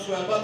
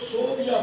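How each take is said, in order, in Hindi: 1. नाम 'Su-wai-ba' की तरह बोला जाता है। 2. नाम 'So-bi-ya' की तरह बोला जाता है। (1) "असल लफ्ज सुवैबा है" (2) "उसको सोबिया पढ़ते हैं"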